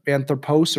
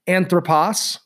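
First: Anthropos ending in "-pohs"; variant pronunciation. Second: Anthropos ending in "-pahs"; variant pronunciation. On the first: Host offering another Greek variant, anthropos ending in "-pohs". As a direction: say anthropos with a long last O, "AN-thruh-pohs". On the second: Host giving the Greek etymology, anthropos ending in "-pahs". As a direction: say anthropos with an open last vowel, "AN-thruh-pahs". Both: Shown as a demonstration.

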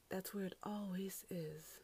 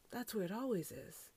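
First: Unvoiced, slow whisper of the same line. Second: Said in the usual way. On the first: Real, not acted. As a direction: whisper it slowly, exasperated. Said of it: "repeated after plain take". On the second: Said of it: "repeated as whisper".

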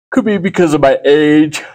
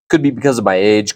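First: Talking through a real yawn, pitch lifted. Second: Said in the usual way. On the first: Real, not acted. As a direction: let a yawn stretch and swallow the words. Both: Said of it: "Sorry, I'm yawning".

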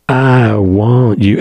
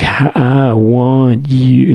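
First: Drawn out. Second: Very slow, higher "I want you", stretched out in mockery; sarcastic, drawn-out "I want you" that imitates a rival; mocking. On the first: Retold or imitated. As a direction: drag out "I want you" like a longing crooner. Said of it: "the way he draws it out". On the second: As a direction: make fun of the crooner by dragging it out. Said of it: "he's, like, making fun of the guy".

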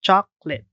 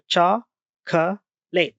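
First: "chocolate" in two syllables, middle vowel gone; schwa dropped. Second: "cho-ka-late" said very slowly, every vowel sounded; slow "cho-ka-late", the middle uh kept; syllable by syllable. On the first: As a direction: say "chocolate" as "choclate". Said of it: "would just pronounce it chocolate, removing the schwa". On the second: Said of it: "another example is chocolate". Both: Shown as a demonstration.

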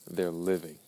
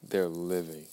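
The two takes are said the same way.

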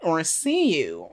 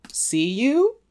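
First: Slow "Or see you?" with a falling, loaded "see"; knowing wink. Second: High rising "See you?" with a sly lift on "you"; suggestive. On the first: Podcaster recasts the text slowly as a flirty "Or see you?". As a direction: draw out "Or see you?" like an innuendo. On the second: Podcaster teases the text, "See you?" rising high and suggestive. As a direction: make "See you?" sound flirty, pitch leaping up. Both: Shown as a demonstration. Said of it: "Wink, wink".

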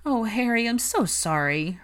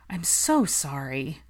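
First: Distressed cry, starting high, then a drawn-out "so"; crying out apology. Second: Slow apology in a subdued pitch, stretching "so"; contrite apology. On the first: Hermione apologizes to Harry as the portrait rants, crying out. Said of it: "Hermione cried". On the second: Hermione apologizes when Harry comes back, slow and contrite. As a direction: apologize sheepishly, lingering on "so". Repeats apology after the commotion. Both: A narrator's reading.

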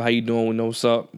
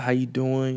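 First: Said in the usual way. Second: Soft, smooth seductive greeting; sexy voice. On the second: Shown as a demonstration. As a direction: lay on the charm, softly. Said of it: "you don't put on the sexy voice".

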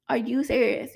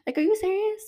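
First: Said in the usual way. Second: Pitched-up disbelieving are you serious; high, stunned question; incredulous. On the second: Real, not acted. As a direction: ask it in outraged disbelief. Disbelief at photoshop accusation.

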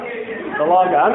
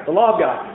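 First: Slow, drawn-out fumble with a rising end; fumbled line. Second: Said in the usual way. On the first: Shown as a demonstration. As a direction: stretch it out as if stalling. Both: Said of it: "I'm, I'm, I'm sorry".

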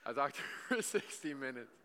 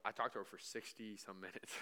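First: Laughing. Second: Said in the usual way. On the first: Real, not acted. Repeats it with a laugh.

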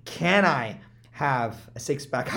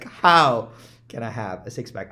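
First: Said in the usual way. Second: Louder, with "How" stressed. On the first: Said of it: "Instead of saying". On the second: Shown as a demonstration. Coach showing the better question, louder stress on "How". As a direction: punch "How". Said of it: "I want you to ask".

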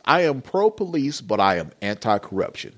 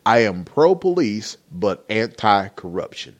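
First: Said in the usual way. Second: "pro-police" slowed, each word weighed and falling; slow and deliberate. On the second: Shown as a demonstration. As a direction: spell out "pro-police" slowly and carefully. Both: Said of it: "Listen to me carefully".

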